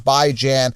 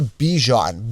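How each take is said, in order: First: The first syllable sounds like 'bye'. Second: The first syllable sounds like 'bee'. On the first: The speaker calls it right. "Bai is in bi-weekly, Jan is in Ran" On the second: The speaker calls it wrong. "people say Bijan, B E E G J H O N"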